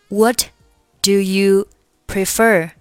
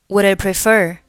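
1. "Do you" 完整、清晰地读出来。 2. "Do you" 弱化成一个很轻的音。

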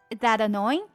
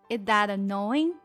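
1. 这句话说得比较快。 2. 这句话说得比较慢。

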